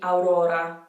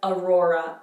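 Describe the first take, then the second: First: It is said with an Italian accent. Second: It is said with an English accent. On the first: "In Italian, it would be Aurora" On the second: "In English, we have aurora"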